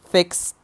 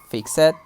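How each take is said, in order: First: The ending is a single t sound. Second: The ending is an extra 'id' syllable. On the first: The speaker calls it right. "we pronounce them like t" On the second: The speaker calls it wrong. "some students sometimes say"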